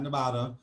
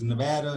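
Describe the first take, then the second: First: The middle vowel sounds like the one in 'father'. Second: The middle vowel sounds like the one in 'add'. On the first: The speaker calls it wrong. "not Nevada" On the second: The speaker calls it right. "I just want to correct you, it's Nevada"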